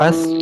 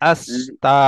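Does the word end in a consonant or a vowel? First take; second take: consonant; vowel. First: The word ends on a consonant sound. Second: The word ends on an open vowel sound. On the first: The speaker calls it wrong. "নয়" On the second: The speaker calls it right.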